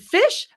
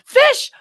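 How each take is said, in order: First: It is said at a normal, quieter volume. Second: It is said much louder than before.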